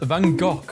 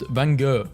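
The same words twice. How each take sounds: First: The name is said the Dutch way. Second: The name is said the American way. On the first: "Dutch pronounce it as" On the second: "Americans saying Van Gogh is pronounced"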